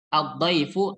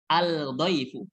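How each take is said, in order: First: The 'l' is silent, going straight into 'd'. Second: The 'l' is clearly pronounced before 'd'. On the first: The speaker calls it right. "cara baca yang benar" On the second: The speaker calls it wrong. "Bukan. Salah"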